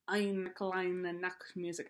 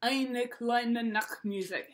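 First: A quiet, slow go at a thick German accent; mock thick German accent. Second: Said in the usual way. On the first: Shown as a demonstration. Teacher to violin students, trying a thick German accent. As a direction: Eine kleine Nachtmusik in a hammed-up German accent. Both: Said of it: "say it in a thick German accent".

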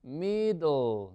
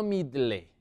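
First: "Middle" said as "MI-dol", drawn out; stretched "Middle", no "leh" at the end; correct pronunciation demo. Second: "middle" read as Spanish "MID-leh"; wrong spelled-out pronunciation. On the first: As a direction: model "Middle" with a dark "dol" ending. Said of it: "Vamos a pronunciar esto bien". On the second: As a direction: say "middle" with a sounded final "leh". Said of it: "No middle". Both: Shown as a demonstration.

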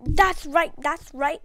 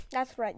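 First: Triumphant. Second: Said in the usual way. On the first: Real, not acted. Gamer gloating to viewers after the kill, loud and triumphant. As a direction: gloat over the win. Celebrating kill, louder repeat.

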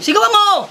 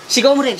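First: Higher, insistent push; forceful urging. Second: Said in the usual way. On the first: Acted. Friend urging husband to shout back, forceful urging. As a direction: press him with a raised voice.

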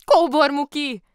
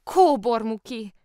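First: High, very loud exclamation of the name; surprised cry. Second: Slow, loud, high cry of the name; drawn-out exclamation. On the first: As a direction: cry out in astonishment. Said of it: "kiáltott fel Lotta". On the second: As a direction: stretch the name out in astonishment. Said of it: "kiáltott fel aztán másodszor is". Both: A narrator's reading.

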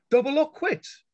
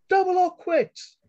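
First: Firm, steady repeat, still raised. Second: High, loud ringing call over the crowd. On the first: Callie repeating her demand firmly to the boss. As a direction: say it again, leaving no room. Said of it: "Callie repeated firmly". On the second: Callie calling out over the crowd, high and ringing. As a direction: cut through the noise with it. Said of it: "Callie's high, clear voice rang out". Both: A narrator's reading.

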